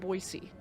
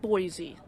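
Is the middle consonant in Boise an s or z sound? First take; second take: s; z. First: The middle consonant is a soft s sound. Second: The middle consonant is a buzzing z sound. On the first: The speaker calls it right. "that is how Boise is pronounced" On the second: The speaker calls it wrong. "It's not Boise"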